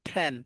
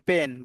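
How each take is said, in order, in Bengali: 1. p টি aspirated, এতে বাতাসের ঝলক আছে। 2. p টি সাধারণ, এতে বাতাসের ঝলক নেই। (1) "বাট এটা কি হবে জানেন? এটা ফ্যান হবে" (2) "এটাকে আমরা কি বলি? পেন।"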